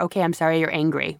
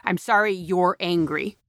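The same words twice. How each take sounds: First: Quick, brushing-off sorry; dismissive fake apology. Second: Mock hollow apology. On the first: Speaker mocking a bad apology, fast and dismissive. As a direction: toss the apology off fast and careless. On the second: Speaker quoting the worst apology, hollow and insincere. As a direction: say sorry like you don't mean it. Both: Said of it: "That's the worst apology".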